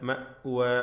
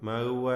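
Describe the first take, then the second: First: The middle glottal stop is pronounced clearly. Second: The middle glottal stop is blurred and unclear. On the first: The speaker calls it right. "വ്യക്തമായി ഹംസയെ ഉച്ചരിക്കുക" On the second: The speaker calls it wrong. "അവ്യക്തമായ മഅ്വ എന്ന് പറയലുണ്ട് പലരും, അത് തെറ്റാണ്"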